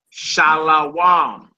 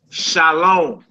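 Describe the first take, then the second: First: "Shalawam" drawn out slowly, the wav read as wa, sha-la-WAM. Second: "Shalom" said with a clear long O, sha-LOM. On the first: Teacher showing students the reading without vowels, slow sha-la-wam. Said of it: "other brothers say". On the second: Teacher contrasting two pronunciations for students, clear sha-LOM with O. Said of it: "you hear some brothers say". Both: Retold or imitated.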